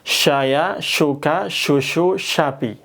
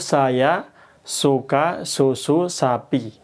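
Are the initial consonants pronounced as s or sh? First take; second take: sh; s. First: Each word begins with a spread sh sound. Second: Each word begins with a thin s sound. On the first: "Kalau shin" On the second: "kalau lafadz sin itu"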